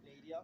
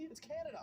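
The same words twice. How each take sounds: First: Canada said as Ka-NAY-dee-uh, mocking the girl; girl mocks the Canadian guest's country, Canada sounding like Ka-NAY-dee-uh; mock mispronunciation. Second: Canada said KAN-uh-duh, stressing the first syllable, said higher; correct pronunciation. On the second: Shown as a demonstration.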